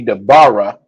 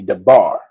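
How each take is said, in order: First: The word ends with an added vowel sound. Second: The word ends without an added vowel sound. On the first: The speaker calls it wrong. "it wouldn't be the bara" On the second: The speaker calls it right. "it would be the bar"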